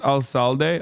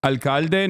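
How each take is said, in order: First: "alcalde" with an S sound for the c, al-SAL-de; mistaken soft C. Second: "Alcalde" with a hard K sound in the middle, al-KAL-de; corrected pronunciation. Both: Shown as a demonstration. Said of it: "not alcalde".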